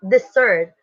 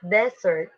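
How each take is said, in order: First: "desert" as de-SERT, the verb; stress on second syllable. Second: "desert" as DES-sert, the noun; stress on first syllable. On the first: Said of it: "It is stress". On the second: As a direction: lean on DES in "desert", second syllable weak. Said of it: "It is unstressed". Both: Shown as a demonstration.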